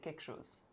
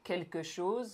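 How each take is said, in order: First: The words are shortened and run together. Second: Every syllable is said fully and clearly. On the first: This is how it is really spoken. "I say quelque chose" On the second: This is the textbook form. "instead of like quelque chose"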